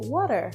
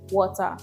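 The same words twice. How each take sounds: First: It is said in an American accent. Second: It is said in a Nigerian accent. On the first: "In America, you say" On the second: "In Nigeria, we say"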